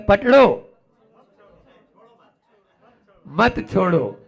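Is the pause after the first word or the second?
first. The pause comes right after 'पकड़ो'.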